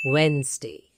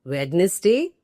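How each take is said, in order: First: "Wednesday" as WENZ-day, falling; two beats in "Wednesday", silent first d; correct pronunciation. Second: "Wednesday" as WED-nes-day, questioning rise; incorrect pronunciation. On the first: Teacher giving the correct form, two-beat "Wednesday". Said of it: "The correct pronunciation is". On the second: Teacher querying the common mistake, three-beat "Wednesday". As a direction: sound the d and middle vowel of "Wednesday". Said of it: "completely incorrect". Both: Shown as a demonstration.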